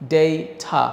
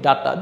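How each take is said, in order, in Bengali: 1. প্রথম স্বরধ্বনিটি 'ay', আর t পরিষ্কার। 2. প্রথম স্বরধ্বনিটি সাধারণ 'a' ধ্বনি। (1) "এটার উচ্চারণ হচ্ছে ডেইঠা" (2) "এটা আমরা কিন্তু বলি ডাটা"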